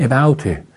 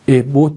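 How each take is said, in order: First: Abouته said as "ebaute", with an open ow glide; تلفظ درست about. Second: About said as "ebot", with a plain o; تلفظ غلط about. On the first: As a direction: open the second syllable of about into "baut". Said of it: "این abouته". (تلفظ about به شکل «اِباوت») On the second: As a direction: flatten the diphthong of about into a short o. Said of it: "about نیست". (تلفظ about به شکل «اِبوت») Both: Retold or imitated.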